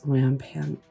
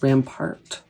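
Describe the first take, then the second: First: The word has an N sound before the T. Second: The word has no N sound before the T. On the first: "it has that N in there" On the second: "That's how I've always said it"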